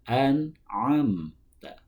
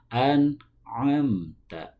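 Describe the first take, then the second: The two takes are said the same way.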